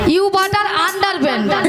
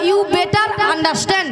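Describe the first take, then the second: First: The phrase ends with a 'pant' sound. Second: The phrase ends with a 'stand' sound. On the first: The speaker calls it wrong. "আন্ডার প্যান্ট নয়" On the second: The speaker calls it right. "বলো you better আন্ডারস্ট্যান্ড"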